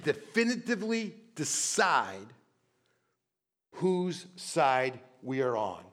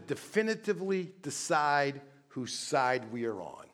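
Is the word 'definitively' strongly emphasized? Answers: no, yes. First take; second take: yes; no. First: The word definitively is strongly emphasized. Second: The word definitively gets no special emphasis.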